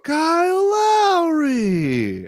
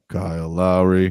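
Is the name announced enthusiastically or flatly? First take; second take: enthusiastically; flatly. First: The name is announced with warm, enthusiastic energy. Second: The name is announced in a flat, plain way. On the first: The returning player is being honored. "He'll do for the intro, ... he'll give respect for the first comeback" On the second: The player is treated as just an opponent. "once the game starts, he'll be like"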